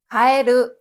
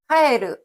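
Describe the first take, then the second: First: The high pitch is on the later syllables. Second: The high pitch is on the first syllable. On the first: It means frog. "개구리란 뜻의 가에르는 뒤에 나오는 에르 부분을 높게 읽습니다" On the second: It means to return. "돌아가다 돌아오다라는 뜻의 카에르는 앞에 나오는 카를 높게 읽고"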